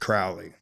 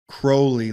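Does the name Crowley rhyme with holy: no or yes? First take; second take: no; yes. First: The name does not rhyme with holy. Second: The name rhymes with the word holy. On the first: This is how most people say it. "But everybody pronounced it Crowley" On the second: This is how the man himself said it. "He said it's pronounced Crowley like holy"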